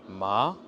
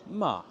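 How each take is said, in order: First: It has the surprised-sounding second tone. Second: It has the commanding-sounding fourth tone. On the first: "Le deuxième ton, ça va être l'étonnement" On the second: "le ton autoritaire"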